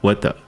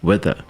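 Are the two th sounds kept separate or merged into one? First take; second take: merged; merged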